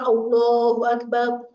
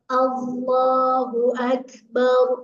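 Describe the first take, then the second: First: The vowel after the lam sounds like o. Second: The vowel after the lam sounds like a. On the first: The speaker calls it wrong. "Jadi bukan Allahu Akbar" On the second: The speaker calls it right. "tapi A-nya mah tetap A. Bukan jadi O"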